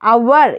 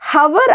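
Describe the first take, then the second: First: The word starts with a vowel sound. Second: The word starts with an h sound. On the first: The speaker calls it right. "அவர் இல்லாட்டி ஆர் அப்படின்னு சொல்லிட்டு pronounce பண்ணலாம்" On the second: The speaker calls it wrong. "இதை ஹவர் அப்படின்னு pronounce பண்ணக்கூடாது"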